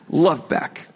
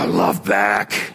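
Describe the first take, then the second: First: It is said in a plain, neutral tone. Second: It is said in a slightly annoyed tone.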